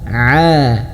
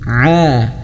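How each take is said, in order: The two takes are said the same way.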